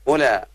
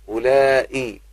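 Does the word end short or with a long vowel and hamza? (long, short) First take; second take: short; long. First: The word ends in a short vowel. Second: The word ends with a long vowel and hamza. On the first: This is the dialect form of one tribe. "تسمى لغة القصر وهي لغة بني تميم" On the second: This is the form used in the Quran. "لغة المد"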